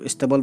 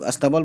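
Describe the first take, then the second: First: The word begins with an 'i' vowel sound. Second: The word begins with an 'a' vowel sound. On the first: "कुछ लोग इस्तबल बोलते हैं। तो dictionary में जो word है वो इस्तबल है।" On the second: "कुछ लोग अस्तबल बोलते हैं"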